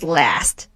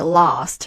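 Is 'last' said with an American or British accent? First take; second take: American; British. First: It is said with an American vowel. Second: It is said with a British vowel. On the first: "American sound is last" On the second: "British English we will say last"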